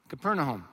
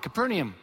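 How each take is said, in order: First: It is said the local-style way. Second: It is said the familiar anglicized way. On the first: The speaker calls it right. "Most would pronounce it Capernaum" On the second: The speaker calls it wrong. "That's what everybody called it"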